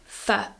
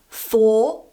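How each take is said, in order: First: The word is reduced to a weak sound. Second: The word is said with its full vowel.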